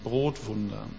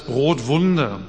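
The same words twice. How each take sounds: First: Brotwunder viel leiser und tiefer nachgesetzt; quiet echo. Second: Brotwunder deutlich betont und fallend; emphatic keyword. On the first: Keyword echoed softly. (Brotwunder leise und tief nachhallend) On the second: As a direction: das Wort Brotwunder fest hinsetzen. Keyword stated, then echoed. (Brotwunder mit Nachdruck, fallend) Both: Shown as a demonstration.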